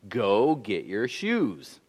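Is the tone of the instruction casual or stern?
stern. It is said in a firmer, more serious tone. The situation has become serious and must be obeyed.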